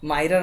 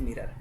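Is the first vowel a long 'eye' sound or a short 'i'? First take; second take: long eye; short i. First: The first vowel is a long 'eye' sound. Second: The first vowel is a short 'i' sound. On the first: The speaker calls it wrong. "माइरर नहीं बोलते हैं" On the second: The speaker calls it right. "इसको यहाँ पर मी बोलते हैं"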